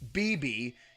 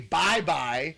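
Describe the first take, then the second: First: Both syllables have an 'ee' vowel. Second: Both syllables have an 'eye' vowel. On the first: The speaker calls it wrong. "we're pronouncing it wrong" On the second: The speaker calls it right. "It should be Bye Bye"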